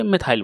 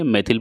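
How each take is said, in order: First: "मेथाइल" ending in an "eye-l" sound; "मेथाइल" with a gliding vowel in the last syllable; alternative -ail ending. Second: "मेथिल" ending in a short "ill" sound; "मेथिल" with no glide in the last syllable. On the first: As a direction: say "मेथाइल" as meth-aisle. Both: Shown as a demonstration. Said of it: "जो भी बोलिए".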